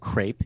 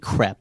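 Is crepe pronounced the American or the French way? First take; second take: American; French. First: Crepe is said with an American pronunciation. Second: Crepe is said with a French pronunciation. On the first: The speaker calls it wrong. "you'd say, in U.S. lingo" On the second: The speaker calls it right. "but it's really crepe"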